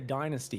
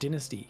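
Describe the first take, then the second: First: It is said with an American accent. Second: It is said with a British accent.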